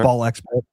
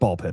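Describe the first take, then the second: First: The letter X is spoken between the words. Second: The letter X is silent between the words. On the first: "I don't know if they pronounce the X or not" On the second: "so it's Ball Pit"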